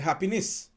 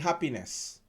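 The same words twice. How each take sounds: First: The last syllable ends with a 'niss' sound. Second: The last syllable ends with a 'ness' sound. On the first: This is the authentic Grenadian way. "we pronounce it like N I" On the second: This is the standard English way. "we don't say happiness"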